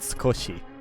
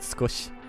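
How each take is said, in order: First: The word ends with a strong final vowel. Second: The word ends on the sh sound. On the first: "I went hard on the e part of that word" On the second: "most people you would just pronounce it skosh"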